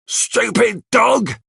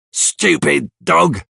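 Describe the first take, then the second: First: High, slow, drawn-out yell of "Stupid dog!"; angry shout at the dog. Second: High, slow mock snarl at the dog; irritated outburst. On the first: Acted. Bill yells at his runaway dog, angry high shout. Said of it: "he shouts". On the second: Bill finds his dog hiding in the room, annoyed outburst. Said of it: "he says".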